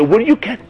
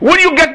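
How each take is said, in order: First: It is said quietly and gently. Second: It is said loudly and forcefully. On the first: The appeal is made gently to the heart. The speaker calls it right. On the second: The appeal is being preached at someone. The speaker calls it wrong.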